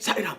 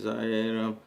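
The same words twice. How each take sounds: First: It is said in an irritated voice. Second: It is said sleepily, barely coming out.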